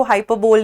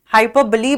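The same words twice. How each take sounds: First: हाइपरबोल ending in "bole", like bowl; mistaken pronunciation. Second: हाइपरबली ending in a "buh-lee" sound; correct pronunciation. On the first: Teacher showing the mistake to avoid, हाइपरबोल ending flatly in "bole". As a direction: say हाइपरबोल without the final "ee". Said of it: "हाइपरबोल नहीं बोलते". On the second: Teacher showing how the term is said, हाइपरबली ending in "lee". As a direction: say हाइपरबली with a final "lee" syllable. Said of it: "हाइपरबली बोलते हैं इसको". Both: Shown as a demonstration.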